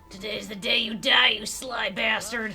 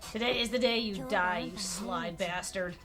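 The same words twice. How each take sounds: First: It is said in an angry voice. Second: It is said in a calm, less angry voice.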